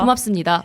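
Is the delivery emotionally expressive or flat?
flat. It is said flatly with little emotion. The speaker calls it right. "보통 이렇게 끝내니까"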